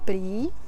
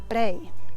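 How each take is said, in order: First: The word ends in a long ee sound. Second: The word ends in an ay sound. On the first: This is the standard form of the word. "we don't say prý" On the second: This is the informal, everyday form of the word. "we say prej"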